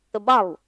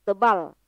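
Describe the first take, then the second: Both takes have the same delivery.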